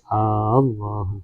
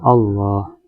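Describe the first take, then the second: First: The opening vowel is drawn out long. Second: The opening vowel is short. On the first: The speaker calls it wrong. "tidak memanjangkan hamzatul jalalati hamzah jalalah, enggak boleh" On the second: The speaker calls it right. "dengan lafaz jalalah Allah"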